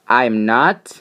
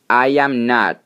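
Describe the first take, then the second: First: The first two words merge into one syllable. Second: Each word is said separately, uncontracted.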